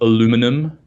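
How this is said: It is pronounced the American way.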